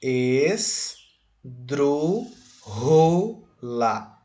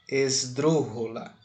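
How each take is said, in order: First: "Es... drú... xu... la", very slow with gaps; syllable by syllable. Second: Said in the usual way. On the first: Shown as a demonstration. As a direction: break "Esdrúxula" into four separate drawn-out syllables. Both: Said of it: "essa palavra esquisita aí".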